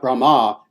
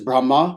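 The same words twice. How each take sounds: First: The final vowel is held long. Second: The final vowel is kept short. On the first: The speaker calls it wrong. "is not Brahma" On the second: The speaker calls it right. "with a short a"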